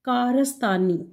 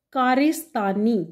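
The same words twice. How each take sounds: First: कारस्तानी with a short a after the r, kaa-ras-taa-nee; teacher showing the correct कारस्तानी; correct pronunciation. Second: कारिस्तानी with an i after the r, kaa-ri-staa-nee; teacher showing the wrong कारिस्तानी; wrong pronunciation. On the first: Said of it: "इसका जो सही तलफ़ुज़ है वो है". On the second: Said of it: "ये कोई सही लफ्ज़ नहीं है". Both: Shown as a demonstration.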